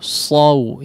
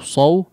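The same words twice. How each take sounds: First: The open a vowel is heard clearly first. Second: The vowel glides straight into the w sound. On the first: The speaker calls it right. "tapi saw saw saw ya, di fathahnya diperjelas terlebih dahulu" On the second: The speaker calls it wrong. "jangan langsung saw saw ya"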